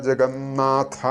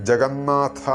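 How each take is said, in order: No difference in how they are said.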